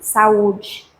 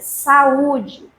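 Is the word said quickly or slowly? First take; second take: quickly; slowly. First: The word is said quickly, in one stream. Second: The word is said slowly, syllable by syllable. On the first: "mesmo pronunciando rapidamente" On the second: "olha o bloco de pronúncia"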